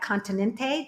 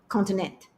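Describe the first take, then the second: First: The final E sound is pronounced. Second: The final E sound is dropped.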